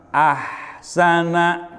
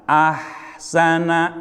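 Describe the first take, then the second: Both takes have the same delivery.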